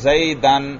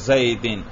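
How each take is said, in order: First: The word ends in -an. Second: The word ends in -in. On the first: The word is in the accusative case. "کبھی زبر پڑھ رہے ہیں" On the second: The word is in the genitive case. "اور کبھی زیر"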